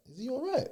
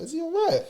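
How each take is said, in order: First: Higher, softer retold wondering to himself; quiet puzzled question. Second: Higher and louder mock alarm at the spinning car; louder puzzled question. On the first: Narrator retells quietly wondering about the driver, mildly puzzled. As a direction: muse it under the breath, puzzled. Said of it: "so I'm like". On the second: Narrator retells calling out at the driver's car, mock alarm. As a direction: call out in retold alarm. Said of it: "now I'm actually looking at the car like".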